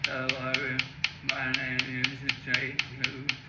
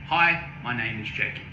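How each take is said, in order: First: It is spoken with difficulty, haltingly. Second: It is spoken normally and fluently.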